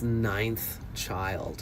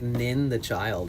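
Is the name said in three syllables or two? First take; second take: two; three. First: It is said as two syllables, ninth child. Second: It is said as three syllables, nin the child. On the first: The speaker calls it right. "it's Ninth Child" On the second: The speaker calls it wrong. "I used to mispronounce her name"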